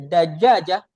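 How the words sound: The middle consonant is a soft j sound. This is the standard pronunciation. "if we say Dajaja"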